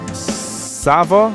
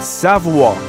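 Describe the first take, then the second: First: The name is said with a non-French pronunciation. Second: The name is said with a French pronunciation. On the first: The speaker calls it wrong. "It's pronounced Sava?" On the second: The speaker calls it right. "the French way"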